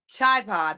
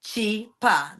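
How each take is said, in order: First: The first syllable has the vowel of 'eye'. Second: The first syllable lacks the vowel of 'eye'. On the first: It names another pair's dance. "why I didn't say chai pa" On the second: It names the speaker's own dance. "That's how that goes"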